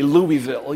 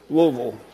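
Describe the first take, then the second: First: The name is pronounced crisply, each syllable clear. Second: The name is slurred together, soft and mushy. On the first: This is how outsiders say the name. The speaker calls it wrong. "You don't say Louisville" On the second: This is how locals say the name. The speaker calls it right. "It's like a mouthful of grits"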